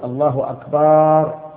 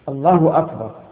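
First: The vowel after the b is drawn out. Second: No vowel is drawn out. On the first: The word becomes a plural meaning drums. The speaker calls it wrong. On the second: It is the valid formula. The speaker calls it right.

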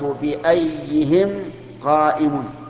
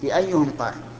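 First: The vowel after ayy- is an i-sound. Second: The vowel after ayy- is a u-sound. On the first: The speaker calls it wrong. "خطأ" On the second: The speaker calls it right. "الصواب ... مبنية على الضم"

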